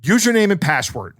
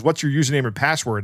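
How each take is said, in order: First: Mimicked curt boss; terse, impatient order, lightly acted; curt demand. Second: Said in the usual way. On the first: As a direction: demand it curtly, no niceties. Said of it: "very curtly says". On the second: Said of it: "turns to me and goes".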